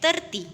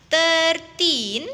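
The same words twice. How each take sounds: First: "thirty" said short and quick, no drawn ending; short tens number. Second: Put-on "thirteen" with a long, stretched "teen"; longer teen number. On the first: Teacher contrasts tens with teens, "thirty" said short. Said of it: "pengucapannya lebih singkat atau pendek". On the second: Teacher contrasts teens with tens, "thirteen" stretched long. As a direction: draw out the end of "thirteen". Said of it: "pengucapannya sedikit lebih panjang". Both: Shown as a demonstration.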